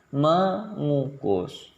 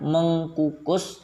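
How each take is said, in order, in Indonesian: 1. Bunyi k dihilangkan setelah awalan. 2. Bunyi k dipertahankan setelah awalan. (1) "tapi mengukus" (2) "bukan mengkukus"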